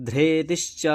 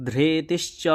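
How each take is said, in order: No difference in how they are said.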